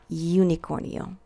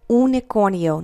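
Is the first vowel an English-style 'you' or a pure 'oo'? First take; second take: English you; pure oo. First: The first vowel is an English-style 'you' sound. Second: The first vowel is a pure 'oo' sound. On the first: The speaker calls it wrong. "not unicornio" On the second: The speaker calls it right. "It's U. Unicornio"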